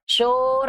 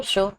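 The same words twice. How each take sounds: First: شور with a long, stretched و; drawn-out vowel. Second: Said in the usual way. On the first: Shown as a demonstration. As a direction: drag the vowel in شور as a wrong example. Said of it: "ایسے نہیں پڑھا جا رہا ہے". (شور کو کھینچ کر) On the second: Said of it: "آرام سے".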